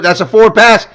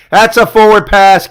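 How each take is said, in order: First: Loud, high, indignant call; outraged shout. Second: "That's a forward pass." said loud and high, slower, each word leaned on; slow insistent shout. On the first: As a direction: yell it like the ref missed it. Protesting a forward pass. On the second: Repeats protest slower, insistent. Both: Real, not acted.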